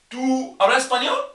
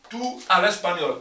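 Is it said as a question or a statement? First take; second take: question; statement. First: It has the changed intonation of a question. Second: It has the plain intonation of a statement. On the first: It asks whether the listener speaks Spanish. "la entonación de la frase, de la pregunta cambia" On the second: It states a fact. "En la primera forma, tú hablas español, normal"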